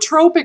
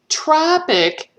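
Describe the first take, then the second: First: The first vowel sounds like the one in 'toe'. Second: The first vowel sounds like the one in 'top'. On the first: It describes something that stimulates another hormone. "a tropic hormone stimulates the release of another hormone" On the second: It describes a hot region. "Tropic is where it's hot"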